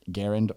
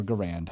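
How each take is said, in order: First: Garand said the first common way, GARR-und; first pronunciation. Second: Garand said guh-RAND, stress on the end; alternative pronunciation. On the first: Host polling listeners on Garand, front-stressed pronunciation. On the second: Host polling listeners on Garand, end-stressed pronunciation. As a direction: say Garand with a strong second syllable. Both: Shown as a demonstration. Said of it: "how do you pronounce it".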